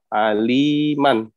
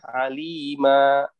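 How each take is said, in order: First: The word ends with an n sound. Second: The word ends with a plain vowel. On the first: The reader continues without stopping. "kalau kata biasa" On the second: The reader stops on this word. "kalau di diwakofkan dibacanya alima"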